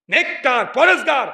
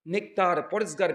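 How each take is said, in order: First: "নেককার, পরেজগার" punched higher, each word on its own; emphatic repeat. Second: Said in the usual way. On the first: Shown as a demonstration. Preacher repeats the key words to his listeners, emphatic. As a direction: hit "নেককার" and "পরেজগার" hard with raised pitch. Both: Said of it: "কি বললাম?".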